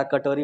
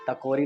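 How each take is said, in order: First: कटोरी said properly as क-टो-री, क first; the right word कटोरी, clearly with क first; correct pronunciation. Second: टकोरी, with the क and ट swapped, said as टको-री; the wrong word टकोरी, syllables swapped, ट first; wrong pronunciation. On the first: Teacher correcting the class with a clear, careful कटोरी. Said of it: "कटोरी होता है". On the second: Teacher mocking a slip by saying टकोरी with the ट first. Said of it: "टकोरी क्यों बोलना बता रहा". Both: Shown as a demonstration.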